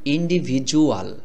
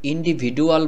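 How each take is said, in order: First: The middle consonant sounds like a 'j'. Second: The middle consonant sounds like a 'd'. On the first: "এই ডির উচ্চারণটাকে আমরা ডর মতো করে না বলে জর মতো করে বলছি।" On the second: "এখানে যদি আপনি ইন্ডিভিডুয়াল বলেন তাহলে হবে"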